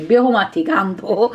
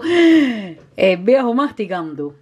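First: Said in the usual way. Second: "El viejo masticando" stretched out slowly, each word savoured; amused slow repeat of "El viejo masticando"; slow, drawn-out repeat. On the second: Shown as a demonstration.

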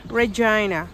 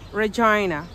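No difference in how they are said.

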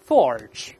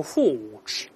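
First: "forge" with a curled R before the final sound; American R. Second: "forge" with a long open vowel and no R; British, no R. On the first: Teacher modelling "forge" with R sounded for repeating, American R. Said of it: "那大声来一遍". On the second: Teacher showing how Britons and Australians say "forge", British, no R. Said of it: "他没有这个卷舌音". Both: Shown as a demonstration.

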